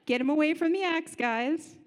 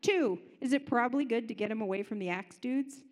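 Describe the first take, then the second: First: "Get him away from the axe guys" said louder, rising on "from"; emphatic answer to his own question; emphatic repeat. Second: Said in the usual way. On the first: Shown as a demonstration. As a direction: push the words out louder the second time.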